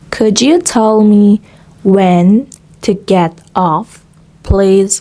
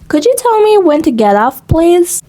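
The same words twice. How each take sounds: First: The sentence is spoken at a slow pace. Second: The sentence is spoken at a fast pace. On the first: "with a slow pace" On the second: "gradually make it faster"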